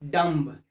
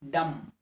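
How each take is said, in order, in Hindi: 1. अंतिम b का उच्चारण होता है। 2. अंतिम b मौन है। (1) "Not dumb" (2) "the letter B is there, but it will remain silent"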